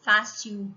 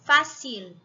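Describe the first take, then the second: First: Fácil said as fasiu, the L turned to U; Rio-style fácil. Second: Fácil with a clear final L, fasil; Spanish fácil with a real L at the end. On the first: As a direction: demo of the carioca fácil with a U ending. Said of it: "a gente põe o som do U". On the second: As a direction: end fácil on a crisp L, the tongue up. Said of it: "som de L em espanhol". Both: Shown as a demonstration.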